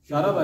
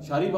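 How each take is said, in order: First: The second vowel is an 'a' sound. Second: The second vowel is an 'i' sound. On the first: The speaker calls it wrong. "शाराबा नहीं है" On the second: The speaker calls it right. "शारीबा होता है"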